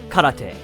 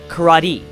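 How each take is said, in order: First: It is pronounced in a Japanese style. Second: It is pronounced in an English style. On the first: "as opposed to" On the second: "the standard Western pronunciation of Japanese terms"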